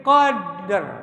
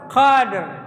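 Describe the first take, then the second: First: The word ends on a heavy, thick r. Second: The word ends on a heavy, thick r.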